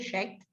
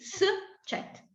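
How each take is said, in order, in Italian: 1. La s si fonde con la consonante successiva. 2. La s si pronuncia separata dalla consonante successiva. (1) "Se io non mettessi il trattino e non li separassi, dovrei leggere scet" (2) "Invece ho bisogno di s, cet"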